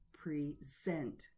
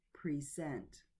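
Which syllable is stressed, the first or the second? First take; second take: second; second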